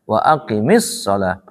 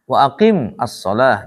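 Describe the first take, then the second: First: The words are joined with an added i vowel. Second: The words are said separately, unjoined.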